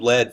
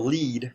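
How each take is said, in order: First: The vowel is short, rhyming with bed. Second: The vowel is long, rhyming with need. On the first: The speaker calls it wrong. "our robot system pr pronounces the L E A D as lead" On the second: The speaker calls it right. "you spell it L E E D, and it says"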